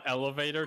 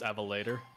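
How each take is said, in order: First: The word begins with the sounds 'ele'. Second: The word begins with the sounds 'eve'. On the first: The speaker calls it wrong. "It's not Elevator" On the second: The speaker calls it right. "it's Evelator"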